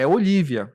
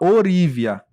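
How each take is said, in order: First: The middle consonant is an L sound. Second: The middle consonant is an R sound. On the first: The speaker calls it right. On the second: The speaker calls it wrong. "E ele fala Orívia"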